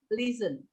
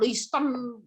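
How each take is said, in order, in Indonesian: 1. Bunyi T di tengah itu diam. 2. Bunyi T di tengah itu diucapkan. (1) "T-nya T jangan dibaca. Silent" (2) "Jadi bukan listen"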